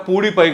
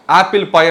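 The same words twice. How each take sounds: First: Pudi పై with a rising, teasing tune; contrastive stress on Pudi. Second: Apple said firmly, slightly louder; stress on Apple. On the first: Joking it is not PewDiePie, stress on Pudi. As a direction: lift పై at the end as a joke. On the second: Naming the app correctly, stress on Apple. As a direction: lean on Apple to give the right name. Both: Shown as a demonstration. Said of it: "Pudi పై కాదు".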